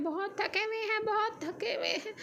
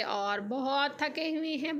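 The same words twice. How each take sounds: First: Higher, softer whiny half-crying complaint; mock tired whimper. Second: Said in the usual way. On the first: Shown as a demonstration. Tired vlogger whines to viewers about the exhausting market trip, mock crying. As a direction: whimper it like a worn-out child. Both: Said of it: "हम थक हार के अभी वापस आए हैं".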